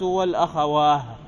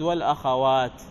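First: The word ends with an h sound. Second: The word ends with a t sound. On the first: The speaker calls it wrong. "هكذا بالهاء" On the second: The speaker calls it right. "يريد والأخوات"

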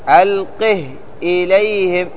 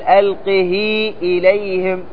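First: The h is cut short with no vowel. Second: The h is extended into a long vowel. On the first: The speaker calls it right. "بتسكين الهاء، فأنت تقرأ ألقه إليهم" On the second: The speaker calls it wrong. "ما تقول ألقه إليهم، لأن ليست قراءة حفص"

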